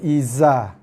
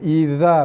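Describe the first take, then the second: First: The consonant is a buzzing 'z' sound. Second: The consonant is a soft 'dh' sound. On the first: The speaker calls it wrong. "bukannya iza" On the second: The speaker calls it right. "jaga idza"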